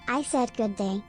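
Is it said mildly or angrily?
mildly. It is said with mild annoyance.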